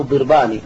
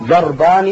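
First: ضربان opening with "dir", an i vowel; kasra on the dad. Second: ضربان opening with "dar", an a vowel; fatha on the dad. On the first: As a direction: pronounce ضربان as dirbani, not darbani. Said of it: "بكسر الضاد". (ضربان بكسر الضاد) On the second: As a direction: pronounce ضربان as darbani, not dirbani. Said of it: "الفتح، ال-، الأكثر في الاستعمال". (ضربان بفتح الضاد) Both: Shown as a demonstration.

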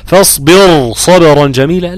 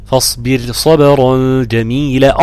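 First: فاصبر with the raa wrongly made heavy. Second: فاصبر with the raa thin, not heavy; correct raa. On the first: Teacher mimics a wrong reading, heavy raa. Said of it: "لا، طبعًا ده بيقرأ غلط". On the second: Teacher recites the correct form, thin raa. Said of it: "ده بيقرأ غلط". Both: Shown as a demonstration.

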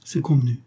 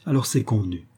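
First: Higher, lightly faltering voice; faltering assent. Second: Said in the usual way. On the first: A narrator's reading. Mistress giving in to her lover, faintly stammering. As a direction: agree weakly in a raised pitch. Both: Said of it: "Elle balbutia".

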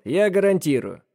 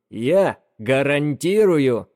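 First: Said in the usual way. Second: Медленно, громко, ударение на «Я»; «Я гарантирую!» медленно, отчеканивая «Я»; с нажимом. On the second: Acted. Бэрон стучит себя по груди. (с нажимом на «Я»)

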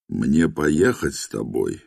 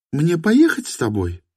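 First: Said in the usual way. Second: «Мне поехать с тобой?» in her higher voice; woman's voice. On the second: A narrator's reading. («Мне поехать с тобой?» женским голосом)

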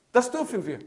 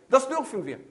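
The two takes are said the same way.

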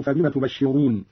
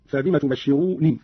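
First: Said in the usual way. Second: تبشروني ending in a light kasra on the nun; single unstressed nun with an i vowel in تبشروني; Qalun reading. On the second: Shown as a demonstration. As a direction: slowly say تبشروني as tubashiruni. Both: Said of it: "بكسر النون مخففة".

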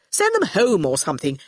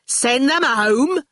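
First: Offhand, impatient suggestion; Torquil offhand. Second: Slow, higher incredulous question; indignant exclamation. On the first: Torquil wants the children gone, dismissive. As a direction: brush the children aside. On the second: Shine echoes Torquil's suggestion, exclaiming indignantly. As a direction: throw the suggestion back in disbelief. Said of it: "exclaimed Shine". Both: Acted.

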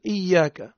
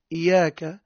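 First: "إياك" as iyyāka, Y doubled and held; original with shadda. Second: "إياك" as iyāka, single Y; without shadda. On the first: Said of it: "هي الأصل إياك". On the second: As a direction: let the Y of "إياك" pass without holding it. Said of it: "من غير شدة". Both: Shown as a demonstration.

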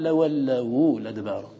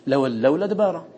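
First: Slow لولوا لدبارا with u after the waw; waw vowelled. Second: لولوا لدبارا with no vowel on the waw; "lawallaw ladbara", waw closing the syllable in لولوا لدبارا; hypothetical reading. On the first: Teacher showing the actual reading, u on the waw in لولوا لدبارا. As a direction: draw out "lawallawu" before "ladbara" in لولوا لدبارا. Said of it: "وسكون اللام يقتضي تحريك الواو". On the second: Teacher showing the unused reading, vowelless waw in لولوا لدبارا. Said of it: "ولو اعتد بالعارض وهو التحريك لقال". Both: Shown as a demonstration.

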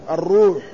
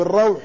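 First: "الروح" said ar-ruuh, long u; damma on ra. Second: "الروح" said ar-rawh, with aw; fatha on ra. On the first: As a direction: round the vowel of "الروح" to ruuh. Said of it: "الروح بضم الراء". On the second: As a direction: open "الروح" into the diphthong rawh. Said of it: "بفتح الراء". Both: Shown as a demonstration.

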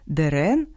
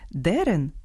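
First: Дерен with stress on the last syllable, de-REN. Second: Дерен with stress on the first syllable, DE-ren. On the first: Host shows homograph for dogwood, last-syllable stress. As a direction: slowly lift the second vowel of Дерен, rising. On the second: Host shows homograph for turf, first-syllable stress. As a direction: slowly lean on the first vowel of Дерен, falling. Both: Shown as a demonstration. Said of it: "а читаються по-різному".

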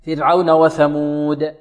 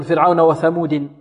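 First: وثمود slowly, long uu, bouncing final د; stopped dal with qalqala. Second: وثمود ending in an added -in, thamudin; kasra nunation. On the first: Teacher models the correct stop for students, stopped dal with qalqala. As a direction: hold the وو of وثمود, release د with an echo. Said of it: "تسكن وتقلقل". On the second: Teacher imitating a student's mistake, kasra nunation. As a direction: end وثمود on a clear -din. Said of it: "ينونها مكسورة". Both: Shown as a demonstration.

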